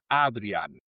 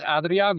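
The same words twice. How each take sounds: First: The name is said with Dutch pronunciation. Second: The name is said with Spanish pronunciation. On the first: "en holandés es Adrián" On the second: "dices Adrián, me parece bien"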